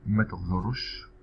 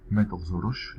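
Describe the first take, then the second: First: Careful slow demo of ما تغزرش; ما تغزرش said slow and clear for learners; slow model. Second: Said in the usual way. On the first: Shown as a demonstration. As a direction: say ما تغزرش slowly, syllable by syllable. Teacher models example slowly.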